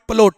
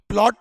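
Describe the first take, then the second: First: A short vowel separates the p and l. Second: The p and l are said together. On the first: The speaker calls it right. "It's called पलोट" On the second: The speaker calls it wrong. "प्लॉट नहीं होता है"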